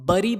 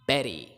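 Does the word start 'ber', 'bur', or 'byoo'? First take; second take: bur; ber. First: It begins with a 'bur' sound. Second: It begins with a 'ber' sound. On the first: "कुछ लोग इसको बरी बोलते हैं जो कि चल सकता है" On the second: "but it's बेरी"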